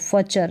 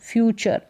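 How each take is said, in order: First: The first syllable is a plain 'fa' sound. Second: The first syllable is a gliding 'fyoo' sound. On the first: The speaker calls it wrong. "फचर नहीं" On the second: The speaker calls it right. "फ्यू और चर"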